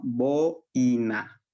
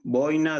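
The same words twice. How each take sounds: First: "Boina" drawn out slowly, both vowels of the diphthong clear; careful demo pronunciation. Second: Said in the usual way. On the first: Shown as a demonstration. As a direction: spell out "Boina" for the class, vowel by vowel. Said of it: "Van de la vocal abierta a la vocal cerrada". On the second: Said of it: "Eh, seis, igual, boina".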